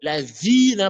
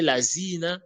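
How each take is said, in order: First: The middle consonant is a soft 'th' sound. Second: The middle consonant is a hissing 'z' sound. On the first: The speaker calls it right. "au lieu de prononcer la zina" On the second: The speaker calls it wrong. "il va prononcer la zina, il confond le va et le za"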